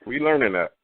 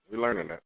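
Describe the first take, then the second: First: Said in the usual way. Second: Much softer, half to himself; quiet repeat. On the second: Real, not acted. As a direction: drop it to a murmur as you repeat it. Repeat said under breath.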